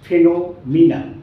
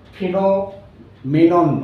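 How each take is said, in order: First: The third syllable has an 'ee' vowel. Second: The third syllable has an 'eh' vowel. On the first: The speaker calls it right. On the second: The speaker calls it wrong. "এর উচ্চারণটা কিন্তু ফেনোমেনন নয়"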